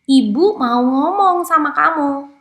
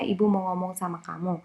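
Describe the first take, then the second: First: It is said higher-pitched and louder. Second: It is said in a normal, calm voice.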